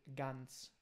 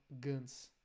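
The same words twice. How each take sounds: First: Ganz said slowly with a clean non-nasal a; unnasal German ganz. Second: Ganz with a Brazilian nasal a; nasal wrong ganz. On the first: Teacher models non-nasal German for Brazilians. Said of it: "A gente fala". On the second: Teacher contrasts the wrong nasal version. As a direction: show the nasalized ganz mistake. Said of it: "e não ganz". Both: Shown as a demonstration.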